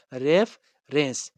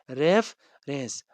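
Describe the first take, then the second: First: Said in the usual way. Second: "reference" drawn out slowly, syllable by syllable; slow demo word. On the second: Shown as a demonstration. Teacher models the new word for the class, slow and deliberate. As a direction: stretch "reference" out slowly so students can follow. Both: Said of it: "R E F E R E N C".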